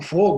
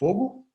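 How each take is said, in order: First: The word is shouted with alarm. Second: The word is asked as a question. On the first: There is a real fire and people must act. "se eu grito fogo" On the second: The speaker is asking whether there is fire. "se eu pergunto fogo"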